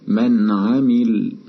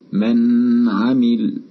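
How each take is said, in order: First: The n is clear and brief, without nasal hum. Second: The n is held too long with nasal hum. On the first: The speaker calls it right. "أظهرنا النون الساكنة" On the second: The speaker calls it wrong. "لأن الغنة ستحدث عندئذ"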